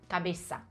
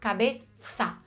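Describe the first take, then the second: First: The middle consonant is a hissing s sound. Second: The middle consonant is a th sound. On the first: "a gente diz uma S" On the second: "com essa língua entre os dentes"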